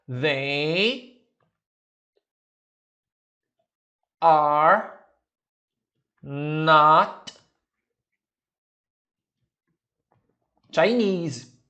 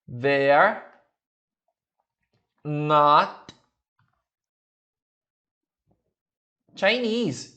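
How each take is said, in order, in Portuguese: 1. Cada palavra é dita na forma completa. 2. They e are se juntam em uma sílaba.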